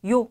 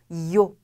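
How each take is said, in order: First: The sound is light, made at the front of the mouth. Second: The sound is strong, like a quick 'i-yo'. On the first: The speaker calls it wrong. "입 앞에서 요 이렇게 나는 게 아니라" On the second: The speaker calls it right. "좀 더 강하게 발음 나고 이요를 빠르게 읽는다"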